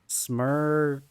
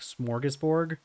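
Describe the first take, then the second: First: The first vowel is an 'uh' sound. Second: The first vowel is an 'or' sound. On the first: It is an attempt at the Swedish pronunciation. "the dots over the the U gives it an uh sound" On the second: It is the familiar American pronunciation. "I've always heard it pronounced kind of like smorgasbord"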